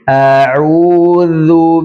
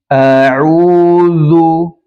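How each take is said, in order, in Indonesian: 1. Bunyi dh tipis, bibir tidak membulat. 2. Bunyi dh tebal, bibir membulat. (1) "mengembalikan bibir pada posisi normal ... seperti ini" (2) "berkesan tebal zalnya"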